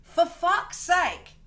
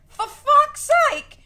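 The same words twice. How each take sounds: First: Drawn-out, weary curse; slow exasperated. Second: High, loud, drawn-out shout with a laugh; laughing yell. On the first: To viewers, slow drawn-out exasperation. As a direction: stretch it out, fed up. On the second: To viewers, redoing her curse as a laughing yell. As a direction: belt it out, half laughing. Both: Shown as a demonstration. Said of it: "Is this the first time I say "for fuck's sake"?".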